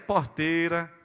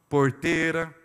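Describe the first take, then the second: First: It is said in a Nordeste accent. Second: It is said in a Paraná accent.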